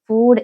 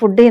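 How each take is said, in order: First: The vowel in the word is long. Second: The vowel in the word is short. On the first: The speaker calls it right. "ഫുഡ് എന്നാണ് കേട്ടോ പറയേണ്ടത്" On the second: The speaker calls it wrong. "നമ്മൾ ഫുഡ് എന്ന് പറയൂലേ"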